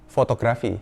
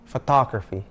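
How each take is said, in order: First: It is pronounced the Indonesian way. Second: It is pronounced the English way. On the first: The speaker calls it wrong. "Banyak orang akan bilangnya fotografi. Padahal bukan" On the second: The speaker calls it right. "it's photography"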